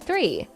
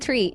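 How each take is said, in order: First: The word begins with a soft TH sound. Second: The word begins with a hard T sound. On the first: The speaker calls it right. "instead of three" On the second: The speaker calls it wrong. "Another one is saying tree instead of three"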